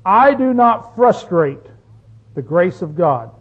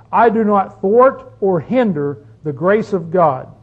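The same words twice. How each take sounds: First: Slow, deliberate scripture reading; reading the verse. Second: Thwart stressed in a slow read; "thwart" given the weight, slow; reworded verse. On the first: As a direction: read it slowly and weigh each word. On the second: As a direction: lean on "thwart" and read it slowly. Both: Shown as a demonstration. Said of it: "Now he says it this way".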